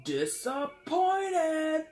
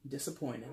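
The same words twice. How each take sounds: First: Drawn-out screamed Disappointed, much higher and louder; mock Kevin Sorbo scream, stretched out; imitated scream. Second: Let-down. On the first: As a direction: belt out "Disappointed!" slowly like a meme. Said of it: "a meme of him screaming". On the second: Retold or imitated. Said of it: "him screaming, "Disappointed!".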